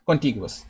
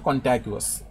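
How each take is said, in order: First: The second syllable sounds like 'ti'. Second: The second syllable sounds like 'ta'. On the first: The speaker calls it right. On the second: The speaker calls it wrong.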